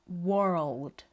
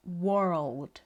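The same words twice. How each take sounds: First: The vowel has a rounded 'or' quality. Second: The same.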